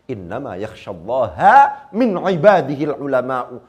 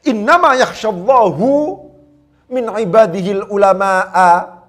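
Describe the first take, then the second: First: Allah ends in a, ulama ends in u. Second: Allah ends in u, ulama ends in a. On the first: Only the scholars truly fear God. "ketika Allah dijadikan sebagai mansubun ala ta'zim dan ulama dijadikan sebagai fa'il" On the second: God is the one who is concerned about the scholars. "Dengan menjadikan Allah sebagai fa'il, al-ulama sebagai maf'ul bih"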